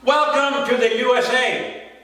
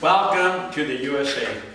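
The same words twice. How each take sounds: First: High, ringing poetic proclamation; proclaimed welcome. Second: Understated welcome. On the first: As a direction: announce the welcome in a raised pitch. Poem line repeated in contrast. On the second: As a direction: drop the pitch and say it plainly. Poem line repeated, dropped down. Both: Acted.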